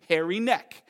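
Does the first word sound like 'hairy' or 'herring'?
hairy. The first word is reduced to sound like 'hairy'. This is how the locals say the name. "Newfies can't say Herring Neck, so they say Hairy Neck"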